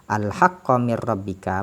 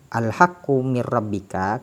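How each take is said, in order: First: The word al-haqq ends with an 'a' vowel. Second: The word al-haqq ends with a 'u' vowel. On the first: The word is read in the accusative case. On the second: The word is read in the nominative case.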